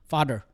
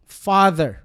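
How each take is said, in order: First: The middle consonant is a d sound. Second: The middle consonant is a buzzing th sound. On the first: The speaker calls it wrong. "Nagiging ganon" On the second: The speaker calls it right. "the buzz of the letter of the letters T and H creates such faith"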